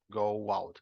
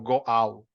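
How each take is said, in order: First: A w-like glide links the two vowels. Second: The two vowels meet without a linking glide. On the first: The speaker calls it right. "solemos hacer un freno con un sonido semivocálico" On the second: The speaker calls it wrong. "No decimos go out, no"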